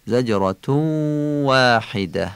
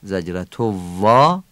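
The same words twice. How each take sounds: First: واحده with a rounded Arabic "w", after a held زجرتو; Arabic waw. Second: زجرتو وا with a Persian "v" for the waw; Persian-style waw. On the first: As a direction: stretch زجرتو into a "w" at the start of واحده. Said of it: "واو واحده هم عربی تلفظ بشه". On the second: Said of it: "وا فارسیه". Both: Shown as a demonstration.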